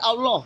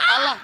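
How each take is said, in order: First: The last syllable has a rounded 'oh' vowel. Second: The last syllable has an open 'ah' vowel. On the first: The speaker calls it right. "tapi Allah, ada O" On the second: The speaker calls it wrong. "bukan bukan Allah kan"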